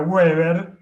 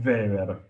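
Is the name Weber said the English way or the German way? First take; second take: English; German. First: It starts with an English w sound. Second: It starts with a v-like sound. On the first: "inglés sería Weber" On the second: "en alemán es Weber"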